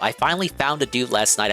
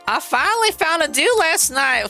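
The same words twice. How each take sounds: First: It is read in the speaker's normal voice. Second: It is read in an exaggerated put-on voice.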